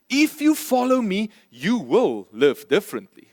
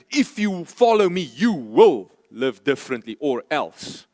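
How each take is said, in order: First: Matter-of-fact. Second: A mock threat, the voice dropping on the second half; threatening. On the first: Preacher shows Jesus stating a plain fact, calmly. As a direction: state it simply as a fact, no threat. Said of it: "He says it as a fact". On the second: Preacher shows Jesus as a threat, menacing. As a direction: say it as a warning with "or else". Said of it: "He's not threatening us and say". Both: Shown as a demonstration.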